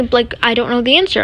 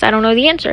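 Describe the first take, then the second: First: Said in the usual way. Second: Little timid retold reply; a touch of meekness. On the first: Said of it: "Obviously, I didn't say that". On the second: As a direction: lightly imitate a timid student. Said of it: "let out my little timid voice".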